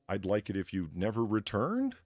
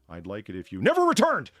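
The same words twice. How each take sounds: First: It is said as a question, rising at the end. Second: It is said as an emphatic exclamation.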